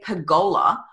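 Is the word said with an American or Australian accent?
Australian. It is said the Australian way.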